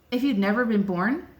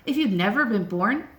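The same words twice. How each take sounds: The two takes are said the same way.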